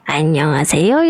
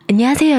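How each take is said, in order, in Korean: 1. 나이 든 여성 목소리로 말하고 있어요. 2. 여성 목소리로 말하고 있어요. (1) "할머니" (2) "여성"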